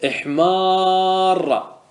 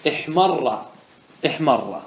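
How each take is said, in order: First: احمار with the maa held very long before the doubled ra; long alif. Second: احمر with a short a straight into the doubled ra; without alif. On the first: Teacher gives the example with alif, very drawn-out aa in احمار. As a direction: stretch the aa of احمار on one level note. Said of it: "هذا بالألف". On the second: Teacher gives the example without alif, short vowel in احمر. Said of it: "احذف الألف". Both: Shown as a demonstration.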